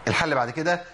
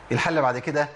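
No difference in how they are said.

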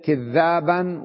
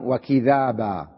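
First: كذابا with a held, doubled ذ; "kidh-dhaaban", the ذ geminated in كذابا; doubled consonant. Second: وكذابا with a light, single ذ; "wa-kidhaaba", no doubling of the ذ in وكذابا; single consonant. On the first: Teacher showing students one Quranic reading, doubled ذ in كذابا. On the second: Teacher showing students the other reading, single ذ in وكذابا. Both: Shown as a demonstration. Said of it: "هي قرئت".

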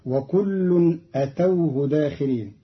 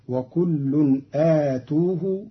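First: أتوه as atawhu, short a then aw. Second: آتوه as aa-tuu-hu, long a then long u; long alif in آتوه. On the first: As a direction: say أتوه with short first vowel and taw. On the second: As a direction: stretch the first vowel of آتوه, then tu. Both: Shown as a demonstration. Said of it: "بضم التاء مع ألف قبلها".

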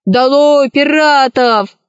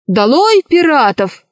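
First: High, drawn-out slogan; boy gleefully joining the revolt, mildly raised; echoing cry. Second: Higher-pitched, defiant slogan; queen's mildly raised battle cry; rallying cry. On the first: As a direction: stretch out the rallying cry. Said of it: "и тоже закричал". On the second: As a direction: call out crisply in revolt. Queen's rallying cry against pirates. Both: A narrator's reading.

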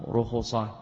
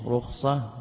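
First: رخصة as ru-khu-sa, two u vowels; رخصة with an added u after kha, "rukhusa"; damma on the kha. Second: رخصة as rukh-sa, kha with no vowel; رخصة with a silent-vowel kha, "rukhsa"; sukun on the kha. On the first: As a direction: say رخصة in three syllables, ru-khu-sa. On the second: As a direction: say رخصة in two syllables, rukh-sa. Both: Shown as a demonstration. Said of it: "والرخصة بضم وبضمتين".

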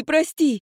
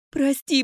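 First: Higher and a touch louder, falling; more urgent plea. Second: Higher, pleading; begging forgiveness. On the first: Mother to daughter, urgent repeated sorry. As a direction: press the plea harder. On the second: Mother to daughter, first pleading sorry. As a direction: beg her to forgive you. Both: Acted.

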